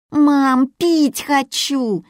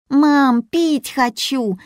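First: Put-on high, pushy child's whine, slow; more insistent whine. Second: Put-on high, whining little girl's plea; whiny child. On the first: Little Yulia repeats her plea more insistently, high whine. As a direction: insist harder like a tired kid, high. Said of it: "повторила более настойчиво Юля". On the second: Little Yulia whines to her mother, high and whiny. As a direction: whine it like a bored kid, high up. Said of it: "законючила Юля".

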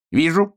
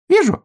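First: A hint of a mother pig, mildly raised. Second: Much higher, loud little-flower voice; dandelion voice. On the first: Mother pig tells Hrjuk she sees him. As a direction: answer plainly as a mother. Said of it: "сказала мама-свинья". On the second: Acted. Dandelion chimes in loudly, much higher. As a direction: pipe it up high and bright. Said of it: "сказал одуванчик".

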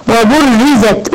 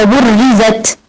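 First: Slow وبرزت with ri, not ra; kasra on ra. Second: وبرزت with ra instead of ri; fatha on ra. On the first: Shown as a demonstration. Teacher modelling the correct kasra. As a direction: say وبرزت as wa-buriz-zat. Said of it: "ري كسرة". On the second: Retold or imitated. Teacher imitating the student's wrong vowel. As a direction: say وبرزت with an open a on the ra. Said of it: "قلتها باين فتحة".

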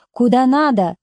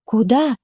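First: Mildly strict official answer; understated stern policeman, falling end. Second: "Куда?" with a rising end; questioning "Куда?", tune going up; simple question. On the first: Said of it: "строго сказал милиционер". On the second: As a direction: ask "Куда?" with the voice lifting. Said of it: "спросила Катя". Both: A narrator's reading.

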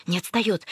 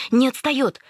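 First: Said in the usual way. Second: Не отстаёт higher and louder; louder alarmed repeat. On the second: Retold or imitated. Varya running behind, repeating the warning louder. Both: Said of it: "приговаривая".

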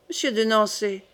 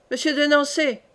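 First: Brisk, level call of the name; quickly. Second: Calling out. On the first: Catherine quickly addresses the captain, brisk and level. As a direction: snap the name out promptly without raising the voice. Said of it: "dit vivement Catherine". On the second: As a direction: call the name across the room. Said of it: "dit le roi". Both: A narrator's reading.

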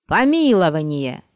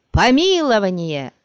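First: Loud roared cry; crowd roar. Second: Crowd roar. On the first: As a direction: roar it like a mob. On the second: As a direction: roar it again, stronger. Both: A narrator's reading. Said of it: "зарычала толпа".

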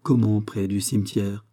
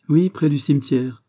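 First: Understated wary question, near usual pitch; suspicious. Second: Higher, louder, thoughtless blurt; heedless exclamation. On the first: Aramis questions Porthos about the cemetery, mildly suspicious. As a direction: query it with a touch of suspicion. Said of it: "fit Aramis soupçonneux". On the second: Porthos answers Aramis about the cemetery, heedless exclamation. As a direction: blurt it out brightly without thinking. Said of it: "s'écria Porthos étourdiment". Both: A narrator's reading.

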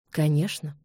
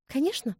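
First: Low, cool, polite yes; almost courteous. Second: Bright, high, falsely cheerful yes; forced cheerfulness. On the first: Ian accepting the duel almost amiably. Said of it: "чуть ли не любезно". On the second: Elizabeth hiding hurt from Ian, forced cheer. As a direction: fake gaiety over a sob. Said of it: "с неестественной весёлостью". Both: A narrator's reading.

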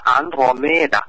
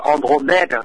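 First: Andromeda said the Greek way, opening "an-dro"; Greek-style Andromeda; Greek pronunciation. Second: Andromeda said the French way, opening "on-dro"; French-style Andromeda; French pronunciation. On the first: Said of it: "còn tiếng Hy Lạp này sẽ là". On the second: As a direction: say Andromeda with a French first vowel. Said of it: "tiếng Pháp là". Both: Shown as a demonstration.

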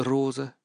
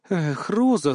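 First: Sad, softer. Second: A sad sigh on Роза, falling. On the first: Grandmother repeating the name sadly, much softer. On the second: Grandmother sadly shaking her head at granddaughter, sighing. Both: A narrator's reading. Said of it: "печально покачала головой".

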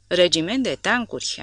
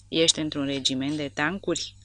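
First: A touch of mock horror, a little louder; mock horrified. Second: Said in the usual way. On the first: A narrator's reading. The soldier echoing her question about tanks, in mock horror. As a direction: echo the words as if appalled. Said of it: "am zis îngrozit".

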